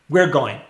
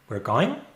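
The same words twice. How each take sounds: First: The pitch contour is neutral and even. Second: The pitch contour is marked and expressive. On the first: "In the first case, we're going, we're going, it's neutral" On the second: "the prosody is different"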